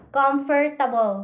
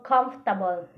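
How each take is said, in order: First: Comfortable said as "com-fer-ta-bol"; every syllable sounded. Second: Comfortable squeezed to "comf-ta-bol"; dropped syllable. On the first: Teacher contrasting two forms, Comfortable in full as "com-fer-ta-bol". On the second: Teacher showing students the reduced form, comfortable as "comf-ta-bol". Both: Shown as a demonstration. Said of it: "mahimong comfortable".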